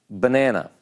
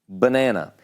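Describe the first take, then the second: Both takes have the same delivery.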